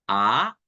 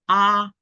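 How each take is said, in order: First: The pitch rises from middle to high. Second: The pitch stays high and level.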